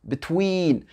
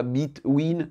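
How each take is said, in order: First: "between" with quick "bi" and long, falling "TWEEN"; correct pronunciation. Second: "between" as "beet-ween", weight on the first syllable; wrong French-style pronunciation. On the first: Teacher correcting the French error, long stressed second syllable. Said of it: "non, between". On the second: Teacher showing what not to say, French-style mispronunciation. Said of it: "et non pas between". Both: Shown as a demonstration.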